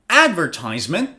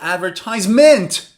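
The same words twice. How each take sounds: First: The stress is on the first syllable. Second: The stress is on the fourth syllable.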